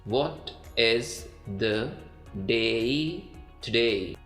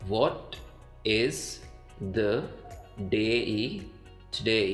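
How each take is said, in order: No difference in how they are said.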